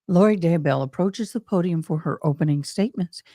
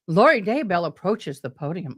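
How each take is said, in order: First: Lightly voiced TV announcer. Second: Said in the usual way. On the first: Shown as a demonstration. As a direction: read it like a news announcer. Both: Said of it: "here's my announcer voice".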